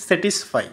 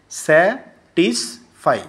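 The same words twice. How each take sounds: First: Said in the usual way. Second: স্যাটিসফাই very slowly in three separate beats; split into three syllables. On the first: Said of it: "তিনবার, এখানে তিন". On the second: Shown as a demonstration. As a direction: break স্যাটিসফাই into স্যা, টিস, ফাই with long gaps. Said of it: "তিনবার, এখানে তিন, তিনটি syllable আছে".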